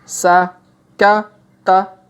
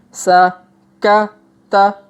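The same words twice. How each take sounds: Both takes have the same delivery.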